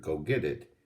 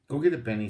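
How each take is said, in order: First: Said in the usual way. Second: Calling out. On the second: A narrator's reading. Jessie calls to the dog.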